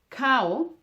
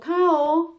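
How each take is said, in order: First: The word is shorter and lower in pitch. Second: The word is longer and higher in pitch. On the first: It means rice.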